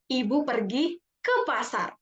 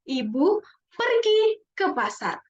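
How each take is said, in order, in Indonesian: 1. Kata ke pasar diberi penekanan. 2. Kata pergi diberi penekanan. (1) "kita tekan di ke pasarnya" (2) "kalau coba kita tekan di perginya"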